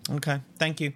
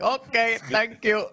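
First: Odd, clipped little thank you; a strangely stiff thank you; weird thank you. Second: Mock Indian accent, laughing; Apu impression. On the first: Real, not acted. Host thanking the guest oddly, stiff thank you. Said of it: "It was a weird thank you". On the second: Co-host mocking the host's thank you, mock Apu accent. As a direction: imitate the shopkeeper's thank you, giggling. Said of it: "sounded like you might have been a poo from the Quickie Mart".

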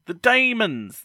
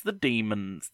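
First: "demons" said DAY-munz, high and loud; DAY-muns pronunciation. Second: "demons" said DEE-munz, in an ordinary pitch; DEE-muns pronunciation. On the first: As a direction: say "demons" with DAY as the first syllable. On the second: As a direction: say "demons" with DEE as the first syllable. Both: Shown as a demonstration. Tries two pronunciations of title.

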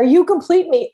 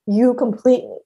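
First: Jerry Maguire line. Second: Said in the usual way. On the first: Retold or imitated. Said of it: "you know, Jerry Maguire". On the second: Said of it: "please do not ever accept".

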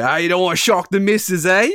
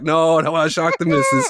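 First: Quick, higher-pitched British barber imitation; cheeky question in a put-on British accent. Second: Said in the usual way. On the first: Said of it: "in the thickest British accent".

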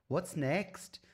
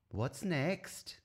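First: High Welsh "What's next?" with a rise; lightly put-on Welsh lilt; Welsh accent. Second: High mock Welsh "What's next?"; a hint of a Welsh teacher; Welsh accent. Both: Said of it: "attempted Welsh accent".

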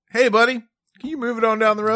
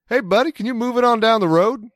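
First: High, loud imitation of a Southern Maryland accent; mock Southern accent. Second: Put-on sleepy Maryland accent gone Southern, calling down from the window; Southern-tinged Maryland accent. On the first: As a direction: echo his friend's Southern call. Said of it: "way more Southern than I intended". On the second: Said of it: "leaned into my Maryland accent ... way more Southern than I intended".

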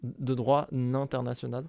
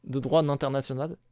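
First: "international" drawn out slowly, opening on a clear "nain"; slow right down so "nain" stands out in "international"; slow pun repeat. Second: "international" said with a leading n, as in "nain"; pun delivery. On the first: Co-host repeating a missed pun, slow stress on "nain" in "international". J'ai juste pas entendu. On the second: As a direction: land the "nain" hidden in "international". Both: Shown as a demonstration.

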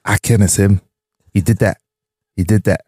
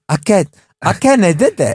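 First: Put-on toddler voice. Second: High, babyish mock toddler. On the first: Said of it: "Why do you sound like a toddler?". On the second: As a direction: mimic a toddler, mocking. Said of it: "Why do you sound like a toddler going".

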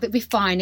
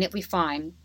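First: Said in the usual way. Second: Softer, trailing repeat of it'll be fine; murmured it'll be fine to calm yourself; quiet self-reassurance. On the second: Retold or imitated. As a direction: say it'll be fine again under your breath. Reassuring herself before hospital.

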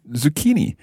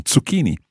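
First: "zucchini" with a buzzing English z; American pronunciation. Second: "Zucchini" opening on ts, Italian style; Italian ts sound. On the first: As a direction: say "zucchini" the American way, starting on plain z. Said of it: "in America, you're more likely to say". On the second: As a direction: say "Zucchini" with ts instead of z. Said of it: "that ts sound at the beginning". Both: Shown as a demonstration.

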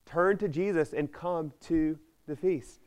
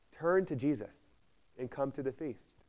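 First: Slower, higher repeat of Turn to Jesus and come to the feast; slow, lifted preacher's appeal; emphatic repeat. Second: Said in the usual way. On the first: Shown as a demonstration. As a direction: lean into every word of Turn to Jesus and come to the feast as an urgent call.

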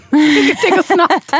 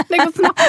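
First: Laughed through, slow and loud; half-laughing, dragging the words out. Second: Said in the usual way. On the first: Real, not acted. Laughing at the child joke.

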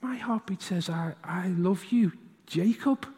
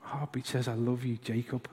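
First: Softly, slowly, lovingly; gentle father to his boy; tender dad. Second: Tender repeat. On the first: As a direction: tell a little son he is loved. Tender answer to son. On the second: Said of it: "repeating the moment". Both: Retold or imitated.

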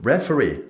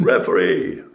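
First: Retold roar. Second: Hoarse, breathy bellow, much louder; big roar. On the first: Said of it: "Så brøler jeg". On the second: Retold or imitated. Goalkeeper roars to the Italian referee over the crowd, raw bellow. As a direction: let out a huge raw roar across the stadium. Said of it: "det store Skauen-brølet da".

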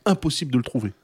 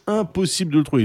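First: Said in the usual way. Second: "Impossible" pushed a bit higher and harder; emphatic repeat. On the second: Real, not acted. To his co-host about the missing Robocop, stressing "Impossible". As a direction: hammer home "Impossible" in exasperation.

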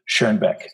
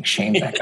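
First: Schoenbeck with a German rounded oe vowel; German-style "Schoenbeck", first vowel rounded as in oe; German pronunciation. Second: Schoenbeck echoed as "Shane-beck"; American-style Schoenbeck, first syllable rhyming with rain; Americanized pronunciation. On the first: Real, not acted. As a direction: say Schoenbeck the German way, like "Shurn-beck". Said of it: "hard time saying it without the German accent". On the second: Retold or imitated. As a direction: repeat Schoenbeck with a long A, like Shane. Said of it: "I pronounce it Schoenbeck because it's easier".

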